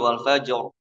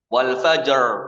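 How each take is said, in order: First: The final r vibrates against the gums. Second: The final r is curled back, English style. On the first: The speaker calls it right. "tapi wal fajr. ... Ada getarannya" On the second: The speaker calls it wrong. "Ini ini R-nya Inggris. ... Wal fajr bukan"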